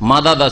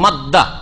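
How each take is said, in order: First: The d sounds are split by a vowel. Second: The two d sounds merge into one doubled d. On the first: "মাদাদা ছিল" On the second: "ঈদগাম হয়ে গেছে"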